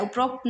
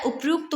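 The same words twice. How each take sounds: First: "उपरोक्त" with rokt at the end; rejected pronunciation. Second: "उपयुक्त" with a yu sound after p; corrected pronunciation. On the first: Teacher showing students the error, "उपरोक्त" with rokt. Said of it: "उपरोक्त नहीं होता". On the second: Teacher giving students the correct form, "उपयुक्त" with yukt. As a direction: say "उपयुक्त" with yukt, not rokt. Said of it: "ये गलत है, उपयुक्त होता है". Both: Shown as a demonstration.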